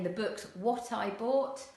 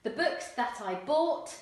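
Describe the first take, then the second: First: "The books what I bought" said casually; casual dialect, "what I bought"; non-standard English. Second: Said in the usual way. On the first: Shown as a demonstration. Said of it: "you might hear someone saying". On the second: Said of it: "Standard English".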